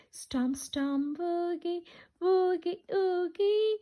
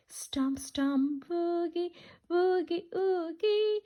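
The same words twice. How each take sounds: The two takes are said the same way.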